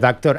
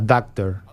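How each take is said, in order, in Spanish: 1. Se dice con un acento parecido al inglés. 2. Se dice con acento español.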